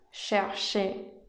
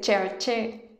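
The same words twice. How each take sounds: First: The word begins with an sh sound. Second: The word begins with a ch sound. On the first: The speaker calls it right. "Es un sonido más similar a SH" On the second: The speaker calls it wrong. "No se dice cherché"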